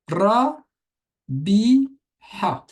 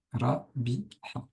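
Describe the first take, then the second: First: Ra, bi, ha spelled out high and loud, each syllable apart; syllables called out loud. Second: Quiet recap. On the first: Teacher spells the word out to students, loud and high. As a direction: call out each Arabic syllable clearly, raised voice. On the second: Teacher quietly repeats the syllables for students, soft. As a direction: murmur the syllables again as a quick check. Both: Shown as a demonstration. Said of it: "attention à ce ba".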